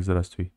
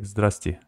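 First: Здравствуй with every letter sounded; written form. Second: Здрасте, letters dropped; quick everyday Здрасте; spoken form. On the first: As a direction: spell out Здравствуй in full. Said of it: "It's written like". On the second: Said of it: "it's pronounced like". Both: Shown as a demonstration.

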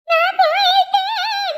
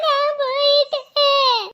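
First: Hammed-up sung wail, higher and slow; sung, wail it out like a mock dirge; sung, theatrical singsong lament. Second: Slow, half-hearted mock lament; a subdued hammed-up whimper. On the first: Wails at threat. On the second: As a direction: let the wail sag into a moan. Repeats wail, lower.

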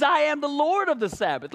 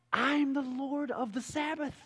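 First: Bold declaration. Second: Softer and slow, a calm final word; quiet, slow declaration. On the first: Jesus answering the religious leaders, bold proclamation. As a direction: proclaim it, ringing and sure. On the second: Jesus quietly putting the leaders in their place. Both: Acted.

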